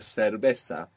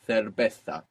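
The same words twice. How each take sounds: First: The z is pronounced as an s sound. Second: The z is pronounced as a th sound. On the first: "with the s sound" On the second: "using the th sound"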